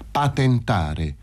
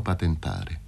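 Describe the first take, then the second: First: "Patentare" slow, each syllable separated. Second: Said in the usual way. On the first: A narrator's reading. Fazio repeating for dazed Paroni, "Patentare" slowly syllabled. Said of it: "sillabò Fazio".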